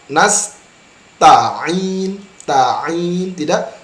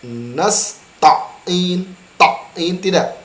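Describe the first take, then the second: Both takes have the same delivery.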